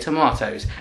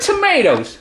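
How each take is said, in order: First: It is said with an English accent. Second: It is said with an American Texan accent.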